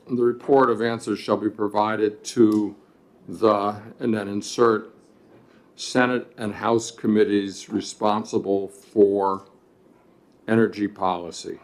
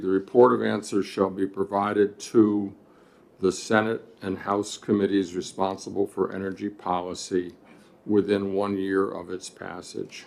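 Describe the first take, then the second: First: Dictating. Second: Steady read-back, clause by clause; reading back the text. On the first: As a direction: spell out the amendment wording. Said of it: "so line fourteen would read". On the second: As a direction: read the amendment out evenly. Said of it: "line fourteen would read". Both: Shown as a demonstration.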